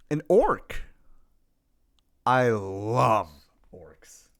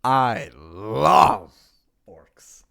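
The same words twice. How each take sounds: First: Put-on Death Wolf accent, sinking to a low murmur. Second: Put-on stronger Death Wolf accent, dropping deep on the last word. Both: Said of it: "pull out the Death Wolf accent".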